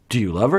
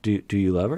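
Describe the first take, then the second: First: The question is asked in a harsh, blunt tone. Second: The question is asked in a gentle, kind tone. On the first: The question is confrontational. "He wasn't like" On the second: The question is friendly and caring. "It's a nice tone"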